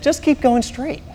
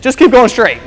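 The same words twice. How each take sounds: First: Higher but softer, slow stubborn insistence; husband ignoring the GPS, slow and stubborn. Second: Louder, higher confident command; husband overruling wife in the car, confident. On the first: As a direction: dig in slowly and quietly. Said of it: "like a man". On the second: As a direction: brush her off like a man who knows best. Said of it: "I said, as a man". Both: Retold or imitated.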